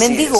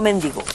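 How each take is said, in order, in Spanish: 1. La sílaba acentuada es la segunda. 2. La sílaba acentuada es la primera. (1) "Ese es el nombre" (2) "No mendigo. ... no lleva tilde"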